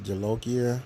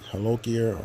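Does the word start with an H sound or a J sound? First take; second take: J sound; H sound. First: The word begins with a J sound. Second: The word begins with an H sound. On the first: The speaker calls it wrong. "I think I've been pronouncing them wrong. I don't think it's Jalokia" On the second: The speaker calls it right. "I think it's more like Halokia"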